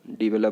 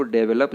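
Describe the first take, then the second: First: डेवलप starting "di": di-VE-lup; correct pronunciation. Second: डेवलप starting "day": DE-ve-lup; wrong pronunciation. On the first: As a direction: say डेवलप with a short i first. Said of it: "डेवलप बोलना है". (डेवलप को "डिवेलप" बोलें) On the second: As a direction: say डेवलप with an e first vowel. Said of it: "जो गलत तरीका है". (डेवलप में "डे" बोलें) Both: Shown as a demonstration.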